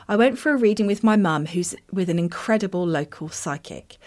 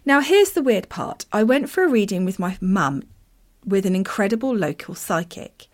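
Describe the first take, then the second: First: Words slurred round loose teeth; reading with dentures slipping. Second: Said in the usual way. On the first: Real, not acted. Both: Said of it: "Let me put my teeth back in".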